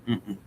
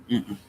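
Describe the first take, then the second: No difference in how they are said.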